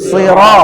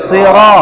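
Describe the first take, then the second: Both takes have the same delivery.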